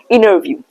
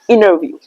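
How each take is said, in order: First: The T is silent, sounding like double N. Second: The T is silent, sounding like double N.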